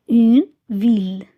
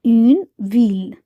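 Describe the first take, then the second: No difference in how they are said.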